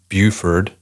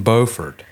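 First: Buford with first syllable BYOO; city name pronunciation. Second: Beaufort with first syllable BOH; city name pronunciation. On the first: Host contrasts same-spelled cities, Buford said with BYOO. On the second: Host contrasts same-spelled cities, Beaufort said with BOH. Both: Shown as a demonstration. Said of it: "it's spelled the same".

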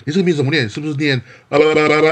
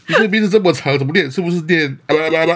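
First: Higher, louder mocking voice, laughing through it; mocking rude person. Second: Much higher, louder sneering voice; mock the long name like a rude outsider; mocking rude person. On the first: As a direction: ridicule the long name like a rude outsider. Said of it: "比如说". (嘲弄的语气，边笑边模仿无礼的人) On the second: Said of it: "你有遇过这种人吗". (更夸张地嘲弄，高声模仿无礼的人)

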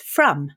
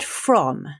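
First: "from" said as "frum"; Northern Irish "from", drawn out as "frum"; Northern Irish vowel. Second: Said in the usual way. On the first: Shown as a demonstration. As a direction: say "from" with a short u, rhyming with "drum". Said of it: "I pronounced from". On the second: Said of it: "and the word from".

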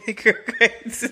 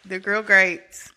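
First: Higher, giggling through GRILL GRATES; laughing. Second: Slow, deliberate GRILL GRATES; composed retake. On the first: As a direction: try to say GRILL GRATES while cracking up. Cracks up trying to resume. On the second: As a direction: say GRILL GRATES slowly, holding back the laugh. Composed retake after cracking up. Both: Real, not acted.

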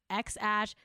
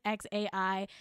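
First: "X Ash" said as ex-ash; pronounced "ash". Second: "X A I" spelled out letter by letter; pronounced as letters. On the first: Host contrasting the parents, "X Ash" as ex-ash. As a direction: say the second part of "X Ash" like the word ash. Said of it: "is saying it's pronounced". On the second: Host contrasting the parents, "X A I" as separate letters. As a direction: say "X A I" as three letter names, ex-ay-eye. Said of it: "[name] is saying it's". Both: Shown as a demonstration.

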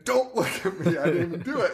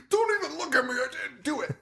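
First: Higher, breaking into laughter; giggling mock protest; laughing through a quote. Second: High mock yell of a guilty son; mock scream. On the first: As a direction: retell the line while cracking up. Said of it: "the son's saying". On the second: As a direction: shriek it defensively, much higher. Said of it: "the son is screaming".

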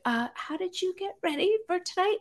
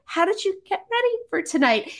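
First: High, timid little question; small, high, nervous voice. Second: High-pitched question at normal volume; retold nervous question, pitched up and fully voiced; nervous repeat. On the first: Retold or imitated. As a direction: retell a nervously tentative question, softly. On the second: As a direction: ask it once more, high and nervously earnest. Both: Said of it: "I was so nervous".

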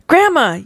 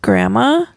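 First: High-pitched yell at moderate volume. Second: Hesitant, questioning call with a rise; tentative beginning. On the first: Child runs back into the house to grandmother, mild yell. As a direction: call out urgently, pitched way up. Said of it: "you yell". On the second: Child begins to tell grandmother about the ghost, tentative. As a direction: start uncertainly, lifting at the end. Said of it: "you begin". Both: A narrator's reading.

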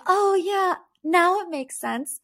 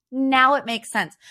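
First: High, airy mock "now it makes sense" with "now" lifted; mock realization. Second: Dry "now" stressed, then falling on "makes sense"; sarcastic "now it makes sense". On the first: Mocking the cast finally getting the story. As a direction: play the ladies pretending it finally clicks. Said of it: "all the ladies were like". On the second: Real, not acted. Host scoffing at the reunion story, sarcastic. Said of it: "but, oh".

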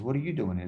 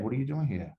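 First: What are YOU doing here, you punched; turned-around question. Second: What are you DOING here, doing punched then falling; surprised question. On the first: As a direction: stress on you, falling after it. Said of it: "He says". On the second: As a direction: stress on doing, falling at the end. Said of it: "Ed, Mar-, Ed". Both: Retold or imitated.

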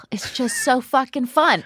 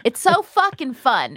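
First: Whispered, no voice at all. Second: Said in the usual way. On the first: Real, not acted. Host gushing to the audience about the guest's live show, in a whisper. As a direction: breathe it out as a secret.

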